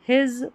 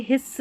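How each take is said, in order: First: His said as "hiz"; his with a voiced final sound; voiced z ending. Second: His said as "hiss"; his with a hissed final s; wrong s ending. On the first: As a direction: end his on a buzzing z. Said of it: "इसको his पढ़ेंगे". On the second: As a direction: end his on a sharp voiceless s. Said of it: "his नहीं पढ़ना है". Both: Shown as a demonstration.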